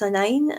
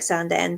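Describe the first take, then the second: First: The name is said the way locals say it. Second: The name is said the way it is spelled. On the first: The speaker calls it right. "but it's Sanine" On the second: The speaker calls it wrong. "this looks like Sanden"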